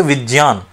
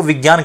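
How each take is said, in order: First: विज्ञान said "vij-yaan"; j-y in place of g-y in विज्ञान; linguistic pronunciation. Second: Said in the usual way. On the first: Shown as a demonstration. Teacher gives an example to students, विज्ञान pronounced "vij-yaan". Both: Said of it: "अब यदि हम ज्ञ का उच्चारण नहीं करेंगे".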